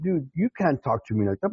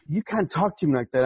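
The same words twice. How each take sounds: First: "you" punched as the strongest word; stress on YOU. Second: Said in the usual way. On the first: Retold or imitated. Retort to the man who scolded him, stressed "you". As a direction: throw it back, leaning on "you". Retort turning the words back.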